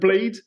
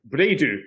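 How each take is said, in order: First: The word ends cleanly on the final consonant. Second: An extra vowel is added at the end. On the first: "rather than blade" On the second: "take the English word and then add the vowel sound"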